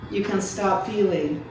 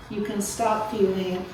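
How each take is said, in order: Both takes have the same delivery.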